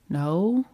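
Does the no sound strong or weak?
weak. The no sounds weak and uncertain.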